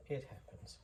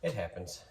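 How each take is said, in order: First: Breathy whispered echo. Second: Said in the usual way. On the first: Real, not acted. Maker repeating it to himself, whispered. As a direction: whisper it to yourself.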